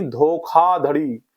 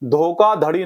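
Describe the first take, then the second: First: धोखाधड़ी drawn out slowly with aspirated kh; correct pronunciation. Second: धोखाधड़ी with unaspirated k in place of kh; wrong pronunciation. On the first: Teacher correcting students, slow धोखाधड़ी with clear aspirated kh. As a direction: say धोखाधड़ी slowly as dho-khaa-dhadi. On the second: Teacher showing students the mistake, धोखाधड़ी with plain k. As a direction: say धोखाधड़ी as dho-kaa-dhadi, no puff on the k. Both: Shown as a demonstration. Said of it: "धोखाधड़ी नहीं".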